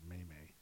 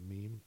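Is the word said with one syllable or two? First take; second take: Two; One. First: The word is said as two syllables, 'may-may'. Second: The word is said as one syllable, 'meem'. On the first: Someone else said it this way. "they said Maymay" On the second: This is the speaker's usual way of saying it. "Instead of a meme"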